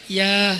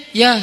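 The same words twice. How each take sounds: First: Said in the usual way. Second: Curt, raised one-word reply; angry misreading. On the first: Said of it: "Cuman nggak pakai titik, titik, titik". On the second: Retold or imitated. Reader misreading a text reply, angry. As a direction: say it harshly, as if cross. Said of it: "Dia kok marah-marah sih?".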